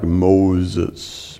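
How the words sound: It is said in a dramatic movie-style voice.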